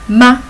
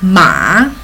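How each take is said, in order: First: The pitch is short, light and unstressed. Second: The pitch dips low then rises. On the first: It marks a question. "with neutral, we pronounce as ma" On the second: It means horse. "The third one is ma"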